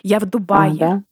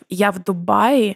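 First: The place name takes the regular case ending. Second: The place name keeps its unchanged base form. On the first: The speaker calls it right. "Дубай склоняется, как сарай" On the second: The speaker calls it wrong. "меня так бесит, когда люди говорят"

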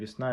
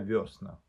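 First: The first vowel is 'ye', stress on the end. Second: The first vowel is 'yo', stressed at the start.

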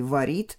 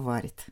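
First: The stress is on the second syllable. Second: The stress is on the first syllable. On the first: This is the older form. "Раньше говорили" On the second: This is the current form. "сейчас говорят только"

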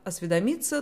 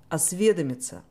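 First: The stress is on the fourth syllable. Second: The stress is on the second syllable. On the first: The speaker calls it wrong. "то он категорически неправильный" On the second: The speaker calls it right. "Только так произносится это слово"

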